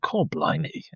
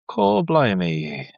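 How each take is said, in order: First: It sounds amazed and impressed. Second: It sounds unimpressed and disappointed.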